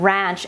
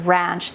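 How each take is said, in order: First: Last "ranch" with a rounded back vowel, like raunch. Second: Said in the usual way. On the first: Shown as a demonstration. Quoting what Southern viewers hear, "ranch" as raunch. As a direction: draw out "ranch" toward R-A-U-N-C-H. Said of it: "R A U N C H". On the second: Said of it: "when I say the word ranch".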